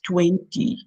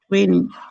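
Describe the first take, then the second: First: The middle T sound is clearly pronounced. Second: The middle T sound is dropped. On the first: This is how it is said in Kenya. "tumetoka Kenya, it's twenty" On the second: This is how people here say it. "They don't pronounce the T"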